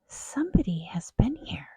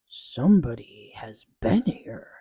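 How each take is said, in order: First: It is said in a softer, gentler growl. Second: It is said in a deep, loud growl.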